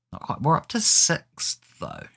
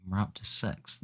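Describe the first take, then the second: First: Excited. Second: Said in the usual way. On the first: Real, not acted. Excited about climbing the table.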